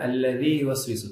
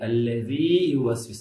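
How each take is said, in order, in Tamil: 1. முதல் பகுதி குறுகலாக லேசாக இருக்கிறது. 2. முதல் பகுதி அதிக நேரம் பிடித்து அழுத்தமாக சொல்லப்படுகிறது. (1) "தப்பு" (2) "அல்லதி அழுத்தமா சொல்லணும்"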